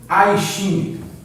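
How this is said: The name is pronounced the English way. The speaker calls it wrong. "E jamais, nunca, em tempo algum ... isso não é inglês"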